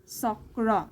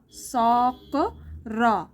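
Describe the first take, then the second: First: Said in the usual way. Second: Very slow, सॉक and र said apart; broken into parts. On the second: Shown as a demonstration. Teacher to Assamese learners, sounding out the parts very slowly. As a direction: spell out सॉक र piece by piece, slowly. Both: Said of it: "तो आपको ऐसे पढ़ना है".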